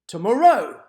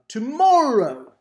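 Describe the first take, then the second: First: The stress is on the third syllable. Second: The stress is on the second syllable. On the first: The speaker calls it wrong. "the first and the third exaggeration just were really off" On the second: The speaker calls it right. "sounds pretty close to the way we would pronounce tomorrow"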